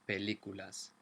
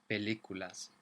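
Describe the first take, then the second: Both takes have the same delivery.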